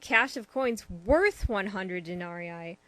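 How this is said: The word 'worth' is stressed. The speaker calls it right.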